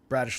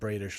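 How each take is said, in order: First: The first vowel is the short a of radish. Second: The first vowel is the long a of crayfish. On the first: The speaker calls it right. "it's pronounced Bradish, ... Bradish like radish" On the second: The speaker calls it wrong. "not Bradish like crayfish"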